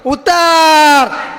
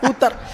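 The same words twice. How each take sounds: First: The call is said very loudly. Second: The call is said fairly softly. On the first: The caller has arrived close by. "तिसरा gear टाकल्याच्या नंतर जरा जोरात म्हणला" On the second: The caller is still far away. "पहिला gear टाकला"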